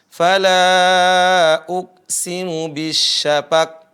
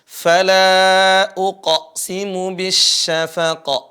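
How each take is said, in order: First: The final q stops flat without any bounce. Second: The final q ends with a clear bouncing echo. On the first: The speaker calls it wrong. "enggak ada qalqalahnya. Di akhirnya juga sama" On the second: The speaker calls it right. "Ada qalqalah. Ada pantulan, memantul lagi suara qaf yang sukun"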